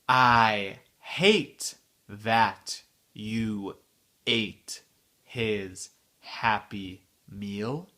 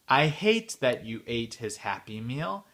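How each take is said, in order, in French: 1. La phrase est dite lentement. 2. La phrase est dite à vitesse normale. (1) "la phrase entière, lentement" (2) "à la vitesse normale"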